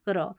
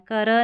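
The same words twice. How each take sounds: First: क्र with क and र joined; correct blend. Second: कर with a vowel between क and र; wrong split reading. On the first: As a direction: run क straight into र in क्र. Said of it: "तो क्र पढ़ना है". (सही उच्चारण: क्र, क और र जुड़े हुए) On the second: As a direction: say कर as two separate sounds, क-र. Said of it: "कर नहीं". (गलत उच्चारण: कर, क और र अलग) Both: Shown as a demonstration.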